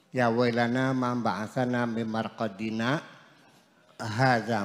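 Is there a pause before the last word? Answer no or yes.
yes. There is a pause before the last word. The last word begins a second speaker's answer. The speaker calls it right. "ada tanda namanya saktah, artinya koma"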